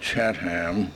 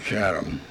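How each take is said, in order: First: The final 'ham' is fully sounded. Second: The final 'ham' is reduced and weak. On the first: This way is harder to say. "it is a bit harder to say Chatham" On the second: This way is easier to say. "than Chatham"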